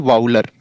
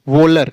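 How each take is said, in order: First: The first vowel is an 'ow' sound as in cow. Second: The first vowel is a long 'oh' sound. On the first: The speaker calls it wrong. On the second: The speaker calls it right.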